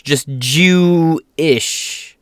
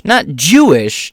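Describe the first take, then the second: First: "Jew-ish" very slow, "ish" stretched; stress on ish. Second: "Jewish" said as one normal word; "Not Jewish" in the usual way; plain Jewish. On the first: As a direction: split "Jew-ish" and linger on "ish". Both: Shown as a demonstration.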